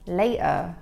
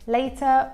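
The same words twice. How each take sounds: First: The T in later is a glottal stop. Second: The T in later is a soft flap. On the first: "that's with a glottal T there" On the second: "In American English"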